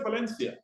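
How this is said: The name is said with English pronunciation. "that's the English version of it"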